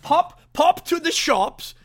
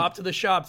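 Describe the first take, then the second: First: It is said in a put-on British accent. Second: It is said in a plain American accent. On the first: "Do it in a British accent" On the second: "You can't just do it like that"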